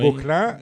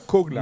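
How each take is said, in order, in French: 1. Le nom commence par un son G sonore. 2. Le nom commence par un son K sourd. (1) "Gauquelin et pas Coquelin" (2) "pas Coquelin"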